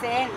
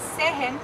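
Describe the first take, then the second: First: The h in the middle is silent. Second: The h in the middle is pronounced. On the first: The speaker calls it right. "where the H has no sound" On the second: The speaker calls it wrong. "So this is not sehen"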